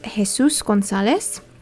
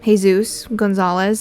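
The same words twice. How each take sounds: First: The name is said with a Spanish accent. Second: The name is said with an American accent. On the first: "the instinct in me is telling me to say it with an accent" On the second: "the American part of me is telling me to say it in, like, a Californian accent"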